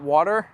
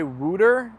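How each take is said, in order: First: "water" with an aw vowel; "water" standard vowel. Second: "wooter" with an oo vowel; "wooter" for water. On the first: Streamer correcting against wooter, aw in "water". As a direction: say "water" with aw, not oo. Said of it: "not water". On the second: Streamer mocking own reported accent, oo in "wooter". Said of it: "I am told I say wooter". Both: Shown as a demonstration.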